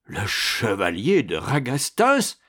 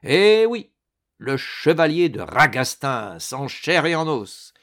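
First: Slow, stunned repeat with a questioning rise; dumbfounded. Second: High, loud opening, then lively and emphatic; jaunty confirmation. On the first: Astorre sees the knight he thought buried, dumbfounded. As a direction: say the name as if seeing a ghost. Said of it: "stupide d'effarement". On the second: Ragastens confirms to the stunned baron he lives, jaunty. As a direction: announce yourself with gleeful assurance. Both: A narrator's reading.

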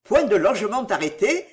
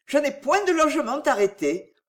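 First: Mild incredulous echo, rising at the end; surprised and angry. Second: Higher, lightly voiced woman's statement; young woman answering. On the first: Delville repeating her answer, with surprise and anger. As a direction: repeat it as an indignant question. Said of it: "d'une voix tremblante qui marquait sa surprise et sa colère". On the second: Cécile answering where she meant to lodge, higher-pitched. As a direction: state it in a raised feminine pitch. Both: A narrator's reading.

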